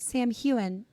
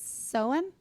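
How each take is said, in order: First: It begins with 'sam' followed by 'hane'. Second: It begins with 'sow' followed by 'un'. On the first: This is how they had been saying it. The speaker calls it wrong. "So we said Sam Heughan" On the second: This is the accepted pronunciation. The speaker calls it right. "Apparently, it's Soun"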